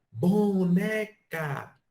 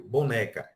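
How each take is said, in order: First: "boneca" called high and slow, "ne" drawn out; called-out stress. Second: Said in the usual way. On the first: Shown as a demonstration. Teacher calling a ternary example up the hill. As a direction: call out "boneca", holding the "ne". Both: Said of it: "um exemplo ternário".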